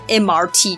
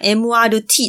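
First: It is said with standard English letter names. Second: It is said with Japanese-style letter names.

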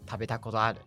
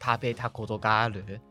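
First: The particle ga is dropped from the phrase. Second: The particle ga is pronounced in full.

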